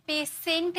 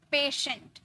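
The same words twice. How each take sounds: First: पेशेंट with a hard "s", pay-SENT; wrong pronunciation. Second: पेशेंट with a "sh" sound, PAY-shent; correct pronunciation. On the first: Teacher shows the class the mistake, S instead of SH. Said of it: "स नहीं". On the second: Teacher models the word with श, correct SH pronunciation. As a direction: say पेशेंट with SH in the middle. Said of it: "स नहीं, श". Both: Shown as a demonstration.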